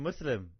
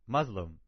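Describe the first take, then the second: First: The middle consonant is a hissing s sound. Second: The middle consonant is a buzzing z sound. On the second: "See, that's the Z"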